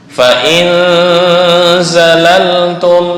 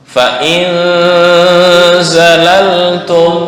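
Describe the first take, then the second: Both takes have the same delivery.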